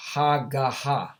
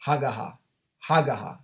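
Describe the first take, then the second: First: Hagaha said slowly, syllable by syllable: ha-ga-ha; Hebrew pronunciation. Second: Said in the usual way. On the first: Shown as a demonstration. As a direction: spell out Hagaha slowly, each syllable clear. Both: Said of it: "it's pronounced".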